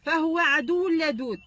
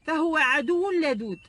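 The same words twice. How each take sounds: The two takes are said the same way.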